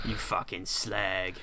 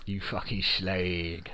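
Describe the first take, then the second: First: Slow, drawn-out London insult; attempted London accent. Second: Slow, softer London drawl; London accent. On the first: Friend trying to copy his co-host's accent, slow cockney attempt. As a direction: try a London accent, stretching the words. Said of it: "can't do that". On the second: Londoner showing his friend the accent, slow cockney drawl. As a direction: stretch it out in broad London. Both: Shown as a demonstration.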